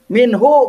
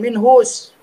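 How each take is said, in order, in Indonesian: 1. Kata ini diakhiri vokal, tanpa s di akhir. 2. Kata ini diakhiri bunyi s tambahan. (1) "Minhu bukan minhus" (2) "Jangan minhus"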